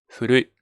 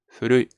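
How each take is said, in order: First: The first sound is a soft, h-like breath. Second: The same.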